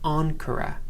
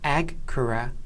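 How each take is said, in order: First: The gamma is a nasal ng sound. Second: The gamma is a hard g sound. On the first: The speaker calls it right. "it's onkara" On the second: The speaker calls it wrong. "It's not agkara"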